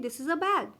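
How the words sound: The word 'a' is said weakly, unstressed.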